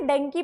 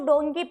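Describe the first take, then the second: First: The first vowel is a short 'uh' sound. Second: The first vowel is an 'o' sound. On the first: The speaker calls it wrong. "डंकी पढ़ते हो" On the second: The speaker calls it right. "इसको डोंकी पढ़ना है"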